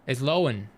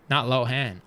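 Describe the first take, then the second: First: Lohan as LOH-an, the h silent; right pronunciation. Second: Lohan said LOH-han with the h and a flat a; wrong pronunciation. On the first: Correcting chat, Lohan said the right way. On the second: Correcting chat, Lohan said the wrong way. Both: Shown as a demonstration.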